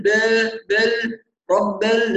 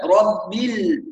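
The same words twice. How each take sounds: First: "رب ال" said "rabbel", i sagging to e; slack kasra. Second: "رب ال" slow, "rab-bil" with a true i; corrected kasra. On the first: Teacher shows what not to say, رب ال with e for i. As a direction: loosen "بل" to "bel". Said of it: "لا نقول". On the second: Teacher corrects the error, slow رب ال with full kasra. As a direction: keep the i of "رب ال" pure into the l. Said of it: "لا". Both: Shown as a demonstration.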